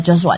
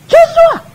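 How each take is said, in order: First: Said in the usual way. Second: High, loud mock yell of a name; re-enacted yell. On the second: Mother calling out her tantruming son, re-enacted angry yell. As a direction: yell it out like an angry parent, imitated. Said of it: "Saya teriak gini".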